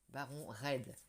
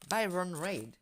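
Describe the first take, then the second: First: The name is said with a French accent. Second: The name is said with an English accent.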